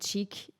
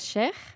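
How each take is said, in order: First: The name is pronounced the English way. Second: The name is pronounced the Arabic way. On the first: This is how English speakers say it. "los ingleses dicen chic" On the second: This is the original pronunciation. "la pronunciación correcta, correcta en árabe es sheikh"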